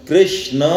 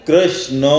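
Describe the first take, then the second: The two takes are said the same way.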